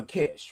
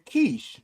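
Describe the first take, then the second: First: Kish with a short i; host's own pronunciation. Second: Keish with a long ee; her own pronunciation. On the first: Host shows nickname for friend, short-i Kish. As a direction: say Kish to rhyme with dish. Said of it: "But I call her Kish". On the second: Host shows how friend says it, long-ee Keish. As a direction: say Keish to rhyme with quiche. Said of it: "That's how she pronounces her name". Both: Shown as a demonstration.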